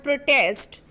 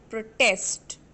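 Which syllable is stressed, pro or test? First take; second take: pro; test. First: The stress is on the first syllable. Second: The stress is on the second syllable.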